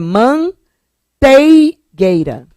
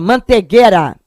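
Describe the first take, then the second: First: It is said with the diphthong 'ei'. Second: It is said with plain 'e', Carioca style.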